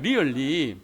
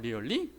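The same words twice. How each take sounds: First: Said with a Gyeongsang Korean dialect accent. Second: Said in standard English with the pitch raised. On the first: "경상도 사람들 그 잔마리가 리얼리 그런다는" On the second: "리얼리 올리잖아요"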